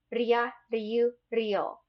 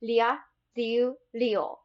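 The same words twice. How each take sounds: First: "Ria, ryu, ryo" with a tap halfway between L and R; "ryu" with a light tap, not an L; "Ria, ryu, ryo" on a tongue tap. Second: "Ria, ryu, ryo" with an English L sound; "Ria" as "lia", "ryu" as "lyu", "ryo" as "lyo". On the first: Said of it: "in between L and R". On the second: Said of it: "just pronounce them like L's". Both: Shown as a demonstration.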